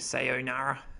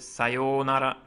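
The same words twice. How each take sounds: First: The O sound in the middle is short. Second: The O sound in the middle is long. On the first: The speaker calls it wrong. "stay away from that um, stereotypical, you know, sayonara version" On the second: The speaker calls it right. "It's a long O sound here"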